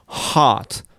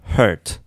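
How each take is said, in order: First: "heart" with a wide-open long ah; stretched, clear-vowelled "heart". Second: "hurt" with a closed er vowel; isolated, muffled-vowel "hurt". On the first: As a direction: make "heart" open and distinct. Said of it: "音がはっきりする". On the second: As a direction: keep "hurt" held in, mouth barely open. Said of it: "音をこもるような形で". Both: Shown as a demonstration.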